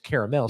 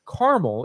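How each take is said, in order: First: It is said with three syllables, car-a-mel. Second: It is said with two syllables, car-mel. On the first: It names the liquid sauce. "C A R A ... I think that's a liquid" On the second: It names the chewy candy. "something that you you eat. It's like you got to chew on it"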